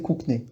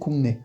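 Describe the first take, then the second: First: The first syllable ends in a k sound. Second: The first syllable ends in an ng sound. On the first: The speaker calls it wrong. "que si on disait kukne" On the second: The speaker calls it right. "on va bien le prononcer kungne"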